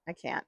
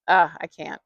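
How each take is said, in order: First: "I can't" dropped much softer, almost under the breath; quiet trailing repeat. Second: Said in the usual way. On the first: Shown as a demonstration. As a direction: let the second "I can't" fade away to nearly nothing.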